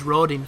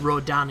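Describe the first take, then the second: First: The second syllable has an 'i' vowel. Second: The second syllable has an 'a' vowel. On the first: The speaker calls it right. "but there's a fucking I" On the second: The speaker calls it wrong. "if you want to pronounce it like the voice actors do"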